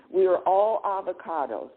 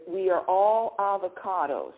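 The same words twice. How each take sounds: The two takes are said the same way.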